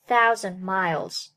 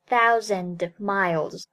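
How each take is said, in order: First: The d of thousand is held, not released. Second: The d of thousand is fully released. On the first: The speaker calls it right. "thousand 爆破音的失去爆破 ... 而读作thousand miles" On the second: The speaker calls it wrong. "不读作thousand miles"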